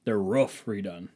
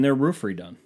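First: "roof" with a short vowel, like "ruff"; slower repeat, saying "roof" as "ruff"; other pronunciation of roof. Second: Said in the usual way. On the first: Shown as a demonstration.

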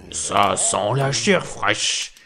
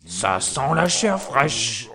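First: Slow booming giant voice; giant shouting. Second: Slow booming giant roar; giant shouting. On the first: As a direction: boom it out like a hungry giant. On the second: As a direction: bellow it like an ogre sniffing. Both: A narrator's reading. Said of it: "en criant".

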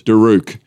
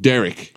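First: "Daruk" with the vowels bent into a mock-exotic sound; trying to ethnic it up, "Daruk"; over-foreign pronunciation. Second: Said in the usual way. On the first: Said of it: "stop trying to ethnic it up". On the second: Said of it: "Derek vs Daruk".

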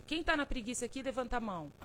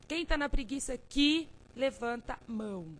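First: Said in the usual way. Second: Chamando o público bem mais alto; chamado mais alto. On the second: Shown as a demonstration. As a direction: convoque a plateia com força. ("Quem tá na preguiça aqui" bem mais alto)

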